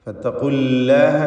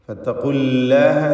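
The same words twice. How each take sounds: First: The L sound is light and thin. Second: The L sound is light and thin.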